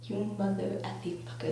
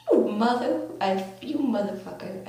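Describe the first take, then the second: First: Toned-down retold curse. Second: Mock outraged swearing. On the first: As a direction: curse under your breath at a friend. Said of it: "I didn't really say that". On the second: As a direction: curse out a friend in retold outrage. Retold confrontation with rival friend.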